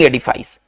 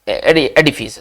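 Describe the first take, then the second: First: The last syllable has an 'eye' vowel. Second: The last syllable has a short 'ih' vowel. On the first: The speaker calls it wrong. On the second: The speaker calls it right.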